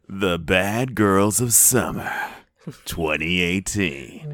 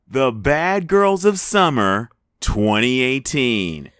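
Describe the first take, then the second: First: It is said in a dramatic movie-trailer voice. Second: It is said in an ordinary speaking voice. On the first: The speaker calls it right. "Better. Thank you, movie phone man" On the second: The speaker calls it wrong. "You're not saying it right"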